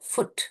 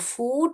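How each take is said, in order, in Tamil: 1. இந்த sound short. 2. இந்த sound நீளம். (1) "ஷார்ட் ஊ தான்" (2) "ஃபூட் கிடையாது அது"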